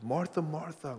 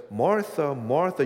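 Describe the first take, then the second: First: With affection. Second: Louder, pressing double call of the name; emphatic call. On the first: Jesus gently correcting Martha with tender affection. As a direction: say Martha, Martha gently, like caring for her. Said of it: "with affection". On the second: Jesus calling out to Martha, loud and intense. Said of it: "in this context, it's affection". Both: Acted.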